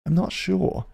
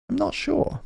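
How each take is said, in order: First: Said in the usual way. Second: Much higher, softer squeak; squeaky falsetto. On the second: Shown as a demonstration. Unsure about the playlist, he squeaks in a tiny falsetto. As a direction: squeak it like a cartoon mouse.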